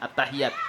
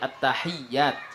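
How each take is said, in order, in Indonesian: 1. Bunyi y-nya pendek dan tunggal. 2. Bunyi y-nya ditahan dan ganda. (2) "tapi at-tahiyyat ... dengan tasdid"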